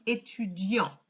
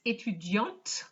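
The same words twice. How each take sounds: First: "étudiant" ending on the nasal vowel, no T; silent final T. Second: "étudiante" ending on a clearly sounded T; final T pronounced. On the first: Teacher showing the masculine form, "étudiant" with a silent final T. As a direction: leave the last T of "étudiant" silent. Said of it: "He wouldn't have pronounced the T". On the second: Teacher showing the feminine form, "étudiante" with an audible final T. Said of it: "we pronounce the T because it's feminine". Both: Shown as a demonstration.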